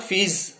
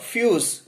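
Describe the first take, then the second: First: The vowel is an 'ee' sound. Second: The vowel is a 'you' sound. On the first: The speaker calls it wrong. "but not fees" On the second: The speaker calls it right. "fuse, but not fees"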